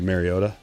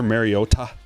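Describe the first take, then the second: First: The final syllable 'ta' is said lightly. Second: The final syllable 'ta' is clearly enunciated. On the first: This is the usual way the name is said. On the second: This is the new way the announcers said it.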